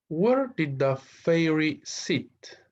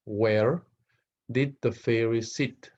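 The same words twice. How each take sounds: First: Very slow, high question read; slow teacher read-aloud. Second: Said in the usual way. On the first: Shown as a demonstration. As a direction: stretch each word for learners. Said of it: "teacher reading exercise question". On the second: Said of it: "teacher repeats question".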